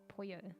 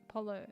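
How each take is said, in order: First: It is pronounced the authentic Spanish way. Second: It is pronounced like the English word polo. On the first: The speaker calls it right. "it actually authentically is said pollo" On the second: The speaker calls it wrong. "So I've always said it polo"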